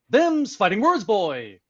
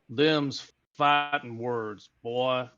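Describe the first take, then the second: First: It is said with odd, goofy non-native intonation. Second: It is said with natural Texan intonation.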